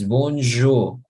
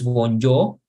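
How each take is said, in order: First: The j is a soft buzzing zh sound. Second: The j is a hard English-style j. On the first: The speaker calls it right. "es bonjour, je, je" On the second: The speaker calls it wrong. "no es bonjour"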